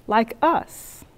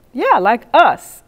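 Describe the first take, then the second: First: Said in the usual way. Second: "us" hit hard and drawn out; slow down and lean heavily on "us"; pointed, drawn-out weight on "us"; stress on US. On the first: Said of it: "he said". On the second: Retold or imitated. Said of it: "I'm emphasizing us".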